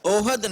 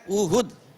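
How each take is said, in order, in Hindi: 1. यह शब्द 'o' स्वर से शुरू होता है। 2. यह शब्द 'u' स्वर से शुरू होता है। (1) "यह लफ्ज ओहद नहीं है" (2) "यह लफ्ज है उहुद"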